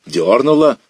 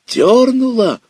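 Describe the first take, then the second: First: Raised, louder, a first excited cry; boy feels a bite on the line, excited cry. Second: Cracking up very high and loud; voice breaking high. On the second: Boy feels the big fish tug again, voice cracking. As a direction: voice breaks into a squeal of excitement. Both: Acted. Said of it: "Голос задребезжал, сорвался".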